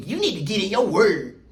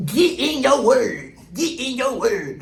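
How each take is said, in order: First: Said in the usual way. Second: Slow, drawn-out imitation of church folks; mock church talk. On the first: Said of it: "no other race that ever told me". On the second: Repeating the commenter's phrase in slow mock preacher tone.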